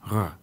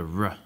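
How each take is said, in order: First: The R is a guttural sound in the throat. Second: The R is a smooth approximant without friction. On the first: "In French, the R is more guttural" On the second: "In standard American English, ... you have the r"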